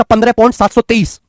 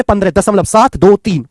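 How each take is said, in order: First: पन्द्रह point सात सौ तेईस read with सात सौ तेईस as one whole number; mock student reading point सात सौ तेईस as seven hundred twenty-three; wrong decimal reading. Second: दशमलव then सात दो तीन, each digit said separately; correct decimal reading. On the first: Teacher shows how a student wrongly reads पन्द्रह point सात सौ तेईस as a whole number. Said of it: "गलत है ये pronunciation". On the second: Teacher shows students to say सात दो तीन digit by digit after दशमलव. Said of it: "ऐसे पढ़ा जाएगा इसको". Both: Shown as a demonstration.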